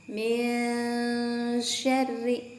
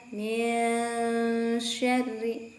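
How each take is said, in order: No difference in how they are said.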